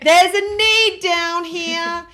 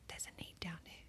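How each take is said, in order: First: It is said very loudly, almost shouting. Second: It is said at normal, quieter volume.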